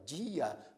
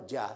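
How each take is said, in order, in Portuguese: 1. A palavra é dividida em duas sílabas. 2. A palavra é dita em uma só sílaba. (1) "duas sílabas a palavra dia" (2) "Você não fala dia"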